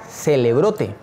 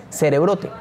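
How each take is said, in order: First: "Celebrote" said slowly with an L for the R; misspelled name. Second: Said in the usual way. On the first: Shown as a demonstration. Teacher allowing for student misspellings, "Celebrote" slowly with an L. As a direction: stretch out "Celebrote", L in place of R. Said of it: "por si lo escribe mal".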